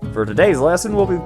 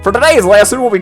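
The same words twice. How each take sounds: First: It is said without a southern accent. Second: It is said with a southern accent.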